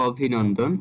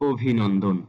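First: "অভিনন্দন" with open অ first; ভুল উচ্চারণ. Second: "অভিনন্দন" lower, with closed ও first; সঠিক উচ্চারণ. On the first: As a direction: begin "অভিনন্দন" on aw, not o. ("অভিনন্দন"-এর শুরুতে খোলা অ) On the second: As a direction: begin "অভিনন্দন" on a rounded o. ("অভিনন্দন"-এর শুরুতে ও ধ্বনি) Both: Shown as a demonstration. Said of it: "এটা সঠিক উচ্চারণ হবে".

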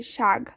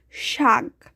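First: শাক said as shag, voiced g at the end; k becomes g. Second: Said in the usual way. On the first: Shown as a demonstration. Teacher showing consonant change, শাক pronounced shag. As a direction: say শাক with a final g instead of k. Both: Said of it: "পরিবর্তন হয়ে গ হয়ে গেছে".

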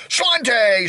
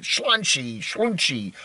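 First: "Slante" pitched high like a toast, ending in "tay"; drinking toast. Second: "Slunchy" with a "shl" start and "chee" ending; uncertain pronunciation. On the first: Vlogger giving Irish drinking slogan "Slante", high toast ending "tay". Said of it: "some sort of Irish drinking slogan". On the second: Vlogger guessing at Irish slogan, "Slunchy" said with "chee" ending. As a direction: try out "Slunchy", slurring the first sound to "shl". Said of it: "however you say it". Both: Shown as a demonstration.

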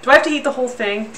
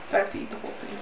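First: Said in the usual way. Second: The question again, much softer and breathier; almost to herself, dreading it; hushed. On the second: Real, not acted. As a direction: dread muttered under the breath.

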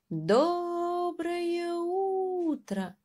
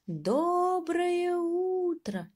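First: Very slow, high drawn-out call. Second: Very slow, high, drawn-out call; calling with all his might. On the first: Mouse calling up to the bird, high and stretched. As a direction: stretch it up to the treetop. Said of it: "крикнул мышонок". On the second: Mouse straining to reach the bird, high and long. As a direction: call out as hard as a tiny mouse can. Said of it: "изо всех сил крикнул мышонок". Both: Acted.

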